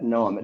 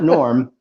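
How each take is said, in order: First: The name is said without an r sound. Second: The name is said with an r sound. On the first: "like N O A M, Noam. ... just his own particular way" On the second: "Not Norm"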